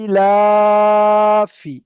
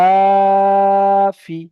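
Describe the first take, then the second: First: ইলাফি with লা stretched long, ফি kept short; long drawn vowel. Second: ইলাফি with লা held long and loud, ফি short; long drawn vowel. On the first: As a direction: hold লা of ইলাফি, snap off ফি. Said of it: "কোনো মতে এখানে একটুও টান হবে না". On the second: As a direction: stretch লা in ইলাফি, clip the ফি. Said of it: "তাহলে এখানে টান করব". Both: Shown as a demonstration.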